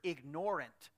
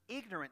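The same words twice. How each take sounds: First: The stress is on the second syllable. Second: The stress is on the first syllable. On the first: Deliberately ignoring something. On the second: Lacking knowledge.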